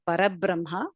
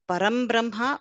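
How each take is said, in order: First: No m sound comes before Brahma. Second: An m sound comes before Brahma. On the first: "or Parabrahma. Both are correct" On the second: "we can say either Param Brahma"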